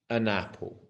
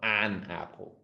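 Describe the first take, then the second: First: The vowel in 'an' is a soft schwa. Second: The vowel in 'an' is full and strong. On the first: The speaker calls it right. "It's más suave, it's a schwa sound" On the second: The speaker calls it wrong. "It's not an apple. Mucho, muy fuerte"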